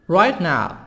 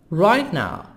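The two takes are said the same way.

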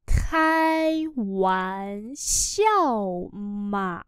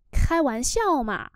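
First: Very slow drawn-out teaching pronunciation; slow syllable-by-syllable model. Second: Said in the usual way. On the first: Shown as a demonstration. Teacher models Chinese phrase for learners, very slowly. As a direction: stretch each syllable, pause between them.

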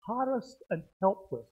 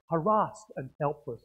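First: "Harassed" stressed on the first syllable, HAR-ust. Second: "harassed" stressed on the second syllable, huh-RASS'D. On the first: Preacher reading the phrase from notes, "Harassed" stressed on HAR. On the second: Preacher offering congregation the other pronunciation, "harassed" stressed on RASS. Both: Shown as a demonstration. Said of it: "the emphasis on the syllable".

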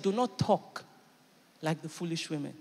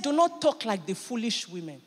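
First: "not" held, "like the foolish women" drops soft; pointed emphasis on "like"; stress on talk like. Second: Measured correction; steady rebuke. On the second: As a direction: stress on "not", firm and level. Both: Shown as a demonstration. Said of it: "He didn't call her a foolish woman".

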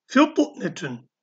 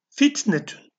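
First: "fitnetün" slow, with a heavy emphatic t; thick t. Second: "Fitnetün" with a light, thin t. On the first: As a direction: draw out "fitnetün", pressing a thick t. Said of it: "T kalın harftir". (kalın t ile yavaş "fitnetün") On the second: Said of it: "T ince harftir". (ince t ile "Fitnetün") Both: Shown as a demonstration.

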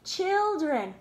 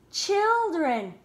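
The two takes are said the same way.

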